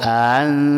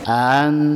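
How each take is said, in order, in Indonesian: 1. Hamzah kedua diringankan. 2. Hamzah kedua diringankan.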